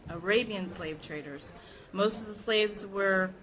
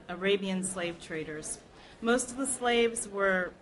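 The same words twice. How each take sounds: The two takes are said the same way.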